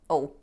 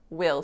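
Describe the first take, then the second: First: The w vanishes, leaving a short schwa-like ul. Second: The word is said fully with w and vowel.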